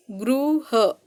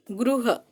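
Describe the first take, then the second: First: गृह said again for the class to compare; second take of गृह. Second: गृह said with a slight difference in its sounds; गृह demonstrated slowly for the class; first take of गृह. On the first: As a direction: repeat गृह as the second take, showing the small sound difference. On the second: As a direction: say गृह as the first of two takes, marking the small sound difference. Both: Shown as a demonstration. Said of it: "थोड़ा फर्क है".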